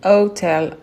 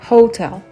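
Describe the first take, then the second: First: The word starts with a silent H. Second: The word starts with a breathy H. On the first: The speaker calls it wrong. "souvent on dit hotel et on prononce pas le H" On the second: The speaker calls it right. "c'est aspiré, on le prononce comme ça"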